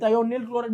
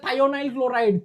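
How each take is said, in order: First: The second syllable sounds like 'nil'. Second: The second syllable sounds like 'nile'. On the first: "थायोनिल chloride भी बोलते हैं" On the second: "इसको क्या बोलते हैं"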